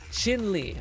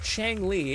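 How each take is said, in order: First: The first syllable sounds like chin. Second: The first syllable sounds like chang. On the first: The speaker calls it right. "I think is how it's pronounced" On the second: The speaker calls it wrong. "it's not Chang Li"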